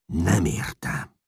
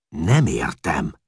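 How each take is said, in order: First: Growled. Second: Annoyed. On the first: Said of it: "mordult meg Csát". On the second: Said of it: "bosszankodott Csát". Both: A narrator's reading.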